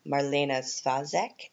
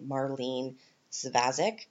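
First: Marlene Svazek said slowly in German style, with an ee-ay sound in Marlene and Sfah-zek with an S and an ah; German-style name. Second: Marlene Svazek in a Canadian accent, Mar-leen Svaz-ick. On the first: Host naming an Austrian politician, German-style pronunciation. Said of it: "I think I mispronounced that". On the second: Host contrasting the name in her Canadian accent. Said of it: "in a Canadian accent". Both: Shown as a demonstration.

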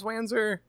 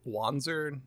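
First: Wanzer said "WAN-zer", vowel of "cat"; Wanzer, first vowel short as in "can". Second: Wanzer said "WAHN-zer", open "ah"; Wanzer, first vowel broad as in "wand". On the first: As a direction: say Wanzer with a flat "a" as in "fan". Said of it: "and sometimes". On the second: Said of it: "they just say". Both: Shown as a demonstration.

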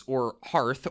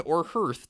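First: Hearth said as "harth"; HEARTH like "heart". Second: Hearth said as "hurth"; HEARTH like "earth". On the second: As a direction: say "hearth" to rhyme with birth. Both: Shown as a demonstration. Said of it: "depending on ... much reading you do".

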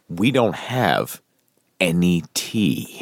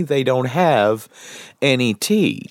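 First: Slow correction. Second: They don't have any tea, stretched slow and pressed; slow emphatic repeat. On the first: Correcting the quote verbatim. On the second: Friend restating the waiter's words to make his point, slow and pointed. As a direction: drive home "any tea" slowly and firmly. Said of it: "I'm gonna point out". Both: Retold or imitated.

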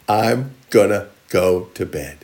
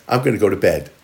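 First: "I'm gonna go to bed" drawn out word by word; slow and deliberate. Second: Said in the usual way. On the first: Acted. Slow, deliberate repeat of the line.

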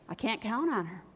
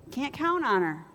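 First: Softer, dropping on count; muttered "I can't count on her"; quiet manager voice. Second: "count" stressed and falling; restated with a falling "count"; repeated flat. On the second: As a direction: echo it plainly, weight on "count". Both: Retold or imitated.

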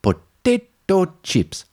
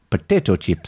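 First: "Potato chips" drawn out slowly, higher, with weight on "Potato"; slow realisation. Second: Said in the usual way. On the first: Retold or imitated. Character finally decodes the word, slow and higher. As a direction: stretch out "Potato chips" as the penny drops. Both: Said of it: "I think he's trying to say potato".

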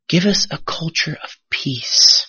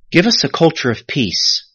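First: Softer and drawn out; slow, hushed repetition. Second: Said in the usual way. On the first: Shown as a demonstration. Pastor repeats a prayer for the congregation, slow and reverent. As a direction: let the prayer line sink in, slowly.

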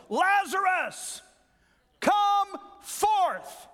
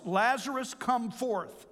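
First: High ringing shout, much higher and louder; loud cry. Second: Said in the usual way. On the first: Shown as a demonstration. Preacher re-reading Jesus calling Lazarus from the tomb, full shout. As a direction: call him out of the tomb at full voice. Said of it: "He cried with a loud voice". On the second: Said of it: "I didn't read that right".

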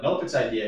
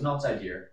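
First: Said in the usual way. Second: "idea" with an r on the end, as "idear"; Boston "idea". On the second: Retold or imitated. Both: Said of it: "but he doesn't say idea".

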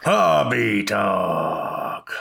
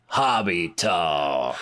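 First: Slow, drawn-out echo of the call; announcer echo. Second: Slow drawn-out announcer boom; announcer call. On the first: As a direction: echo the catchphrase like a co-host. Co-host echoes catchphrase. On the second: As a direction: call out the segment name like a show host. Show segment catchphrase call. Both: Acted.

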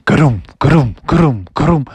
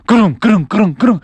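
First: Steady, heavy thudding footfalls; imitated footsteps. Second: Faster, higher thudding footfalls; quickening footsteps. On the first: Wolf footsteps follow the frogs, steady thuds. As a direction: thump out each step at a measured pace. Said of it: "they could hear some footsteps". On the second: Acted. Wolf footsteps coming faster behind frogs, urgent thuds. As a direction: pound out the steps in quick succession. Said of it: "the footsteps coming faster".

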